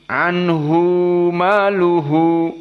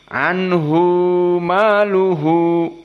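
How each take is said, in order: Both takes have the same delivery.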